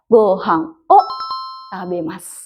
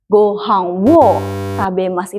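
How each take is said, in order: First: The particle is pronounced as a plain vowel: o. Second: The particle is pronounced with a w sound: wo. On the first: The speaker calls it right. "Yang benar, gohang o tabemasu" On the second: The speaker calls it wrong. "Bukan gohang wo tabemasu, itu salah"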